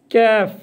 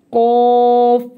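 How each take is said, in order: First: "कैफ़" with a light front k and open, fronted vowel; thin kaf. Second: "क़ाफ़" with a thick back q and long rounded vowel; thick big qaf. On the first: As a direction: keep "कैफ़" thin, with no heaviness on the k. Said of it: "ये बड़ा काफ है". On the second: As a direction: make "क़ाफ़" heavy and hold it loudly. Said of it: "ये मोटा पढ़ा जाएगा". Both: Shown as a demonstration.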